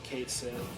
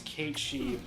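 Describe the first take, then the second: First: It sounds like Kate followed by sith. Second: It sounds like Kate followed by she. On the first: This is the commonly used pronunciation. "everybody has just always said Kate Sith" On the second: This is the Americanized pronunciation. "the way Americans have Americanized it is Kate She"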